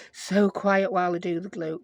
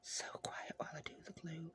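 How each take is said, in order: First: Said in the usual way. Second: Whispered softly, almost silent. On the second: Shown as a demonstration. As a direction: hush it like not to disturb anyone.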